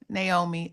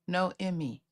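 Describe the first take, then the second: First: The name begins with a 'nay' sound. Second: The name begins with a 'no' sound. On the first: The speaker calls it wrong. "I hope I'm saying your name right" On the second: The speaker calls it right. "My bad. Sorry. I got it now"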